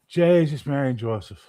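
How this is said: It is said in a Newfoundland accent.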